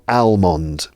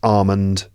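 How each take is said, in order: First: The L sound is pronounced in the word. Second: The L sound is silent in the word. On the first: The speaker calls it wrong. "It's not almond" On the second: The speaker calls it right. "the silent letter is L, so that's almond"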